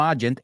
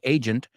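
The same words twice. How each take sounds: First: It is said with Spanish-like sounds. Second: It is said with English sounds. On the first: The speaker calls it wrong. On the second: The speaker calls it right.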